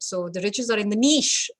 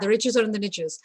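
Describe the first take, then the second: First: Niche is said with a British, French-style pronunciation. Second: Niche is said with an American pronunciation. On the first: "I'm going to say niche because it's a French word" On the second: "All the Americans watching today are going to be like"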